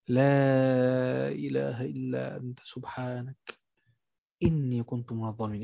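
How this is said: It is said slowly and earnestly, with deep feeling. The words are felt from the heart. The speaker calls it right. "قولها من قلبك ... قولها بالطريقة دي"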